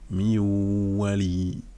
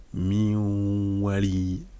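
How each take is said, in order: No difference in how they are said.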